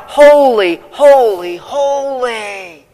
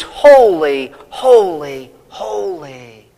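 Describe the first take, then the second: First: Crying out. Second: Said in the usual way. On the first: Retold or imitated. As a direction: cry holy in awe, first one loudest. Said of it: "the only thing they can do is cry out". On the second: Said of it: "But here it's".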